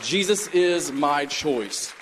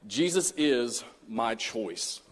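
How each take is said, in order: First: Slow, with JESUS stressed; slow emphatic repeat. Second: Each word weighed, slow and soft; slow emphatic title. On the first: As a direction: repeat the title, leaning on Jesus. Title repeated for reflection. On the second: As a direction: set the title down slowly and gravely. Sermon title stated slowly. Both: Acted.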